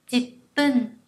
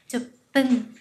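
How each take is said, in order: First: "dịt pân" with an i vowel and held p; ji reading of ten. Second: "dụt pân" with a u vowel and held p; ju reading of ten. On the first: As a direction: say "dịt pân" as jip-pun. (đọc "dịt pân" với âm i, ngắt trước p) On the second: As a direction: say "dụt pân" as jup-pun. (đọc "dụt pân" với âm u, ngắt trước p) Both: Shown as a demonstration. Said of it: "có hai cách đọc".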